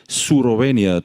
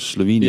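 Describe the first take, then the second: First: It has an R sound and an added vowel. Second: It has an L sound and no added vowel. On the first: This is how Japanese speakers say it. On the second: This is the usual form of the name.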